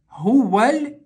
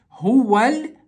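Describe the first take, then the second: No difference in how they are said.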